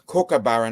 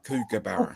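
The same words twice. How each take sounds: First: The first syllable sounds like 'cook'. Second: The first syllable sounds like 'kook'. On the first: The speaker calls it right. "It's actually pronounced cook" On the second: The speaker calls it wrong. "not kookaburra"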